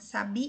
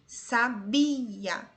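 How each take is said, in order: First: The stress is on the last syllable. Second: The stress is on the middle syllable. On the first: "a sílaba tônica é a última" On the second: "A sílaba tônica em sabia é bi"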